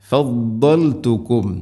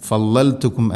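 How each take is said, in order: First: ഫദ്ദൽതുക്കും with a heavy doubled dhad, slow; slow emphatic ഫദ്ദൽതുക്കും. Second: ഫളൽതുക്കും said light and unemphatic; wrong reading. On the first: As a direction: model ഫദ്ദൽതുക്കും, tongue side on the molars. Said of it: "ദ്വാദിന് ഷദ്ദുണ്ട്". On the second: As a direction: demo the mistaken ഫളൽതുക്കും. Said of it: "അല്ല". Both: Shown as a demonstration.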